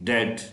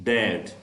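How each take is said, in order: No difference in how they are said.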